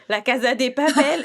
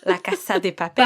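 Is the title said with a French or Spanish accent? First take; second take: French; Spanish. First: The title is said with a French accent. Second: The title is said with a Spanish accent. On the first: The speaker calls it wrong. "je m'excuse d'avoir dit ça avec un accent français, c'est dégueulasse" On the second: The speaker calls it right. "l'effort que tu as fait pour prononcer en espagnol"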